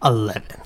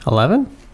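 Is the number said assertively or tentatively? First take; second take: assertively; tentatively. First: The number is said firmly and assertively. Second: The number is said tentatively, like a question. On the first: The speaker calls it right. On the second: The speaker calls it wrong.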